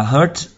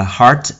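First: "heart" mispronounced as "hurt", with an er vowel; mistaken vowel. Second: "heart" with a long open ah; open A vowel. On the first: Teacher showing learners' mix-up with pain, mistaken vowel. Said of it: "Nhiều bạn đọc là hurt". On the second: Teacher showing how to read heart, open A vowel. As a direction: model the word "heart" with a clear ah vowel. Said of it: "Trái tim đọc là heart". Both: Shown as a demonstration.

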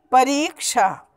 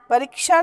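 First: परीक्षा with a long held "ree"; correct pronunciation. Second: परीक्षा with a short "ri", run together; wrong pronunciation. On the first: Teacher corrects pupils' spelling, long-vowel परीक्षा. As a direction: stretch it as pa-reee-ksha in परीक्षा. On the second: Teacher rejects pupils' spelling, short-vowel परीक्षा. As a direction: clip the middle vowel of परीक्षा to "pa-rik-sha". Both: Shown as a demonstration. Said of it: "नहीं होता".

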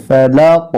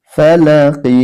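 First: ফালাক ending on a bouncing, echoing k; ফালাক with a clear echoing qalqala at the end; qalqala stop. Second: ফালাকি read through with its ending i; ফালাকি as when reading on; joined reading. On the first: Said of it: "কলকলা করে পড়তে হবে". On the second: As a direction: say ফালাকি with the final ki, not stopping. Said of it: "যখন আমরা এখানে থেমে যাব". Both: Shown as a demonstration.

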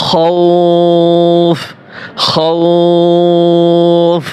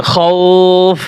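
First: খৌফ with the ও held very long, then stop on ফ; long stretched vowel. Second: Said in the usual way. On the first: Shown as a demonstration. Teacher demonstrating madd lin in খৌফ. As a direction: draw খৌফ out slowly, pause on the end. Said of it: "ওয়াকফ কিভাবে করব". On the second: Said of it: "এটার উচ্চারণ হবে কি".

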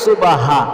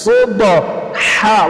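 First: সুবাহা with an extra আ vowel and a light হ; সুবাহা spoken quickly with an inserted vowel; common wrong pronunciation. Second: সুবহা- with a throaty হ from mid-throat, no vowel between ব and হ, drawn out very slowly; সুবহা- said slowly with a tight throat হ; correct Arabic pronunciation. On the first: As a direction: say সুবাহা the way many people get it wrong. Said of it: "সুবাহা বলা যাবে না". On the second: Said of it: "মূলটা বলে দিচ্ছি". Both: Shown as a demonstration.

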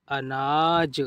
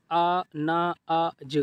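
First: अनाज joined into one word, falling; blended reading. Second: अनाज slowly, broken into separate sounds; sounded out. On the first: Teacher completing the word for learners, blended reading. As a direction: read अनाज whole after sounding it out. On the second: Teacher showing learners easy reading, अनाज sounded out. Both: Shown as a demonstration. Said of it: "इस तरीके से आप पढ़िए".

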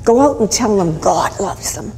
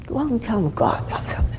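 First: Full-voiced proclamation; proclaiming. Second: Soft, hushed echo; hushed repeat. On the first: Preacher passing a message to the congregation, proclaiming. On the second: Acted. Preacher repeating the message to the congregation, hushed. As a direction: let the message drop to a hush.

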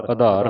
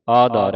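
First: ਆਧਾਰ with a short "a" at the start; wrong short first vowel. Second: ਆਧਾਰ with a long loud "aa" opening; long first vowel. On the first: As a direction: shorten the opening of ਆਧਾਰ to "uh-dhaar". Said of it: "ਆਧਾਰ ਨਹੀਂ ਪੜ੍ਹਨਾ". (ਆਧਾਰ, ਮੁਕਤਾ ਐੜਾ) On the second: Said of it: "ਐੜੇ ਕੰਨਾ". (ਆਧਾਰ, ਐੜੇ ਨੂੰ ਕੰਨਾ) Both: Shown as a demonstration.

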